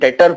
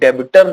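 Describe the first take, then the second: First: No b sound is pronounced in the middle. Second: A b sound is pronounced in the middle. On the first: The speaker calls it right. "ये बी silent होता है, डेटर पढ़ेंगे सीधे" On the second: The speaker calls it wrong. "इसे डेबिटर नहीं पढ़ेंगे"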